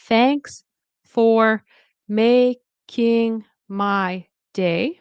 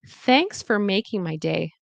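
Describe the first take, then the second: First: The word 'for' is said full and unreduced. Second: The word 'for' is reduced to a quick 'fer'. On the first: The speaker calls it wrong. "it's not thanks for making my day, right? We don't say that" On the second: The speaker calls it right. "We say thanks for making my day"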